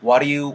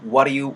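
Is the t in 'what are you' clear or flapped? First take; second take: flapped; flapped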